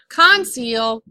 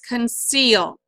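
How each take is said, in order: First: The stress is on the first syllable. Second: The stress is on the second syllable. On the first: The speaker calls it wrong. "Not conceal" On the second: The speaker calls it right. "then this syllable gets accented and it's conceal"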